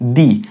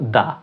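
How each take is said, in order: First: The word ends with a long 'ee' vowel. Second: The word ends with a short 'uh' vowel. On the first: The next word begins with a vowel. "তখন তার প্রনাউন্সিয়েশনটা হবে দি" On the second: The next word begins with a consonant. "T H E এই শব্দটিকে উচ্চারণ করব দা"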